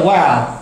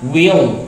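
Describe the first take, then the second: First: WELL with an open vowel, like "wal"; read as "well". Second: WILL said as "wee-ol"; WILL drawn into "wi-ol"; contraction we'll. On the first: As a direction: say WELL as one open syllable. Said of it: "dibaca well". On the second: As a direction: glide from "wee" into a dark l in WILL. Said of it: "kalau seperti ini dibaca will". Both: Shown as a demonstration.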